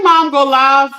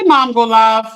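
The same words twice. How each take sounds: First: Chant to mom. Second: Said in the usual way. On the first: Shown as a demonstration. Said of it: "y'all, say".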